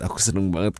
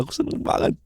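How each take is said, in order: First: Said in the usual way. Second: Whispered, almost breathless repeat. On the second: Acted. Girlfriend to her boyfriend, whispering her happiness. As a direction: let it fall to a whisper.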